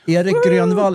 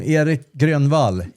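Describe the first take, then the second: First: The name is said with Swedish pronunciation. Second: The name is said with English pronunciation.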